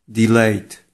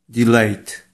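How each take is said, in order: Both takes have the same delivery.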